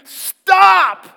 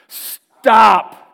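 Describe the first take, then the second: First: The word is said forcefully, with strong emphasis. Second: The word is said mildly, without force. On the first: The speaker calls it right. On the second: The speaker calls it wrong.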